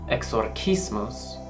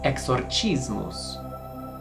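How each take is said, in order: First: The C is said as a hard K sound. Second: The C is said as a soft sound. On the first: This is the classical Roman way of saying it. "In the Roman pronunciation, the C is hard" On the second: This is the Italian church way of saying it. "in the other popular pronunciation, Italian or ecclesiastical"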